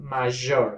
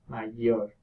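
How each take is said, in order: First: The middle consonant has audible friction. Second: The middle consonant has no friction. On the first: The speaker calls it wrong. "so it's not major" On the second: The speaker calls it right. "There is not a friction either"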